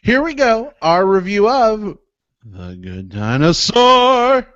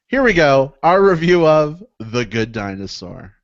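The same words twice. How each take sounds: First: It is said in a big, theatrical way. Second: It is said in a plainer, toned-down way.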